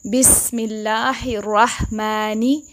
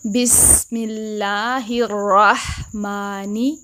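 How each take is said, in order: First: बिस्मिल्लाहिर्रहमानी slow, मा bent toward मै; wrong मै sound. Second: बिस्मिल्लाहिर्रहमानी very slow, clear open मा; careful correct recitation. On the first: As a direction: draw out बिस्मिल्लाहिर्रहमानी with a skewed मै vowel. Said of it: "मै नहीं". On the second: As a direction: recite बिस्मिल्लाहिर्रहमानी slowly with a pure मा. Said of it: "मा नहीं पढ़ना है". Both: Shown as a demonstration.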